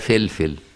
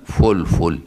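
First: The name is said with Egyptian i vowels. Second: The name is said with classical Arabic vowels. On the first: This is how Egyptians commonly say the name. The speaker calls it wrong. "المصريين يقولوا عليها فلفل يكسروها كده" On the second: This is the proper form of the name. The speaker calls it right. "لكن هي لغة فلفل"

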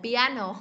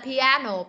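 Both takes have the same delivery.

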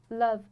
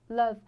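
The two takes are said the same way.

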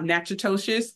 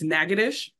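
First: The name gets an anglicized, letter-by-letter pronunciation. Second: The name gets its shortened local pronunciation. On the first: The speaker calls it wrong. "that is not Natchitoches" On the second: The speaker calls it right. "it's Natchitoches"

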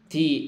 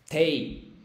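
First: It is one syllable with only the vowel i. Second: It sounds like te followed by i. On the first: The speaker calls it right. "tú tienes que decir ti" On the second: The speaker calls it wrong. "Pero no es tei"

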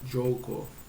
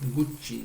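First: It begins with a soft 'jo' sound. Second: It begins with a hard 'goo' sound. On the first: The speaker calls it right. "Joko diye okunuyor" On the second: The speaker calls it wrong. "Yanlış telaffuz ediyormuşum"

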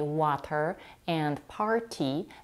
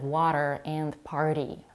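First: The T sounds are clear, full Ts. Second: The T sounds are quick flaps like R. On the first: "It's perfectly okay to say water and party" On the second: "instead of water and party"

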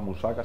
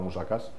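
First: The word ends without a final s sound. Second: The word ends with a final s sound. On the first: The speaker calls it wrong. "no se llama musaka" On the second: The speaker calls it right. "se llama musakas"

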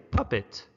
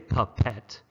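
First: The ending is said like 'it'. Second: The ending is said with a clear 'e' vowel. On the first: The speaker calls it right. "we say puppet" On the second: The speaker calls it wrong. "But we don't say puppet"

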